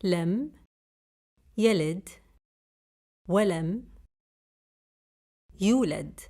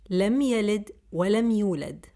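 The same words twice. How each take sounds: First: Word by word. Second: Said in the usual way. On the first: Shown as a demonstration. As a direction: say each word alone, with pauses.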